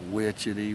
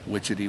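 First: The call is imitated at a slower pace. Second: The call is imitated at a quicker pace. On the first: This is how the bird sounds down south. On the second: This is how the bird sounds in the north.

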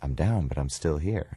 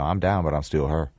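First: Plain standard vowels in still and here. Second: Loose, mumbled Memphis vowels: steal and her. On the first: "And he said" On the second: "if you loosen that up a little bit and you put a mumble to it"

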